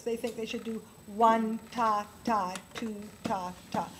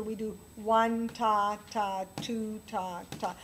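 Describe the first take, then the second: First: One ta, ta, two ta, ta with a pause after each ta; wrong counting. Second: One ta ta, two ta ta counted slowly and evenly; correct counting. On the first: Piano teacher showing students the wrong count: one ta, ta, two ta, ta. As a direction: chant one ta, ta as the mistaken way. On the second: Piano teacher showing students the right count: one ta ta, slow and even. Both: Shown as a demonstration. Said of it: "But that's not true".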